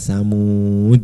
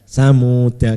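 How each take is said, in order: First: The word ends in a stopped d sound. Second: The word ends in a short a vowel. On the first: The reading stops on this word. "Kalau berhenti" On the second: The reading continues without tanwin. "dibaca pendek ya"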